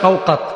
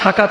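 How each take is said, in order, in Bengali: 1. প্রথম দলে গোলাকার 'o' স্বরধ্বনি আছে। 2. প্রথম দলে সাধারণ 'a' স্বরধ্বনি আছে। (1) "হইতে পারে শওকাত" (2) "নামটা শাকাত হয় না"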